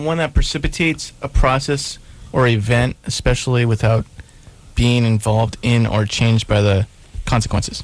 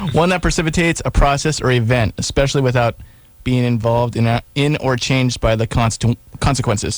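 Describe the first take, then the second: First: It is read plainly, like a definition. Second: It is read energetically, like a sales pitch.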